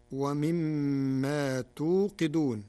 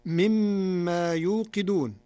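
First: توقدون with ta, tuqidun; slow Warsh reading of توقدون. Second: يوقدون with ya, yuqidun; loud slow recitation of يوقدون; standard reading. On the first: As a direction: start توقدون with a clear ta. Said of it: "بالتاء بدل الياء". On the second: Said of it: "قرأ ورش كلمة يوقدون". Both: Shown as a demonstration.

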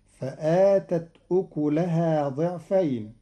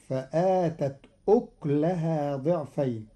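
First: أكلها said ukuluha; damma on kaf. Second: أكلها said uklaha; silent kaf. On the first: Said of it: "قرأ قالون كلمة أكلها". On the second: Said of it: "بإسكان الكاف". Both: Shown as a demonstration.

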